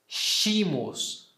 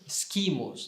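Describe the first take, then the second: First: The word begins with a soft 'sh' sound. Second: The word begins with a hard 'sk' sound. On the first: This is the ecclesiastical pronunciation. "na pronúncia eclesiástica, esse som de S C" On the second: This is the reconstructed classical pronunciation. "Eu pronunciei as duas consoantes"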